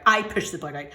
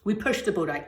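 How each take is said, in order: First: I said with weight, owning it; stress on I. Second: Said in the usual way. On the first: Real, not acted. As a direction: correct yourself, land on I.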